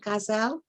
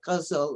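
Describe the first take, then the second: First: The word is said with a Persian pronunciation. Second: The word is said with an Urdu pronunciation. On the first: "I use the Persian pronunciation" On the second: "if it was the Urdu, you would say"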